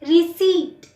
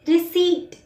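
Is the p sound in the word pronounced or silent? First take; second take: silent; silent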